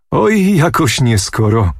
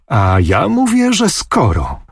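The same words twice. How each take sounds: First: A mild teasing chuckle in the voice, slow and raised; laughing. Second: Insistent, A ja mówię jumping high, falling on że skoro; a girlish pout of stubborn insistence; stamping her foot. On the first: Sword-bearer teases Anusia about Babinicz, lightly laughing. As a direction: tease her gently, half laughing, stretching Oj. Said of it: "śmiejąc się". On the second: Anusia insists against the teasing sword-bearer, pouting and stubborn. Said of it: "tupiąc nóżką". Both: A narrator's reading.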